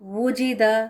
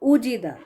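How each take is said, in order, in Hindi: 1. यह शब्द w की आवाज़ से शुरू होता है। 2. यह शब्द सादे u स्वर से शुरू होता है।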